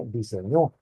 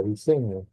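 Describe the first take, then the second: First: "diseñó" stressed on the last syllable, ÑÓ; stress on final O. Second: Said in the usual way. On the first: Shown as a demonstration. Teacher shows what a tilde changes, "diseñó" stressed on the final Ó. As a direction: land the stress at the end of "diseñó": di-se-ÑÓ. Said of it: "Si yo le pusiera tilde en la O". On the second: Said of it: "Vean esta palabra".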